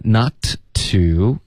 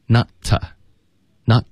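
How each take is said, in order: First: Said in the usual way. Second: "not" run into a short reduced "tuh"; "not" plus weakened to, slowly modelled; weak form. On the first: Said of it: "我们就发". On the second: Shown as a demonstration. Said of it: "to弱读成t".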